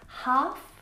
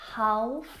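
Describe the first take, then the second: First: The L sound is silent. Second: The L sound is pronounced. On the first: The speaker calls it right. "have a silent L in them" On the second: The speaker calls it wrong. "not half"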